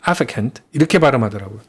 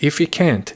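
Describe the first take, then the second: First: It is said with a British accent. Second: It is said with an American accent.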